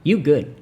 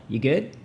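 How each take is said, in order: First: "You good" firm, falling on "good"; literal statement. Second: "good" rising at the end; question. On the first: Teacher showing the literal meaning, "You good" falling as a statement. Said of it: "It's just literally". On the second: Teacher showing what it's not, "good" rising as a question. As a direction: ask "You good" with a lifted ending. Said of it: "it's not a question". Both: Shown as a demonstration.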